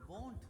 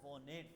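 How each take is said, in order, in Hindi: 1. यह शब्द एक अक्षर में बोला गया है। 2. यह शब्द दो अक्षरों में बँटा हुआ है। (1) "नहीं, वोंट" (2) "वो नेट नहीं"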